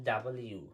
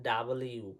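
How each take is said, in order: The two takes are said the same way.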